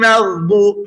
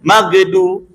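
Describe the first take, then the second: First: The gh sound flows smoothly without bouncing. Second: The gh sound ends with a bouncing release. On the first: The speaker calls it right. "Huruf gha itu kan enggak ada sifat qalqalah" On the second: The speaker calls it wrong. "jangan magdu"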